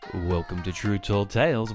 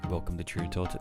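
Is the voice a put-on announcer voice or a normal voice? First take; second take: announcer voice; normal voice. First: It is said in a put-on news reporter voice. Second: It is said in an ordinary everyday speaking voice. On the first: "Don't you think I sound like a news reporter or something?" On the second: "what if I just do it in my normal voice?"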